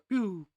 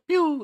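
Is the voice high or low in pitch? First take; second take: low; high. First: It is said in a lower-pitched voice. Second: It is said in a high-pitched voice.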